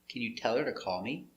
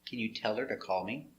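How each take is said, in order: The two takes are said the same way.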